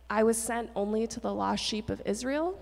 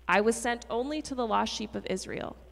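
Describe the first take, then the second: First: The voice rises at the end, like a question. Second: The voice falls at the end, like a statement. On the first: It invites the listeners to respond. "Why are you reading it as a question?" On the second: It simply states a fact. "Jesus might have said it as a statement"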